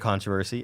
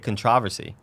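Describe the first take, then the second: First: It is said the speaker's usual, non-British way. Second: It is said the way British speakers supposedly say it. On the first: The speaker calls it right. "Obviously, I say controversy" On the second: The speaker calls it wrong. "like the U K, sometimes they say controversy"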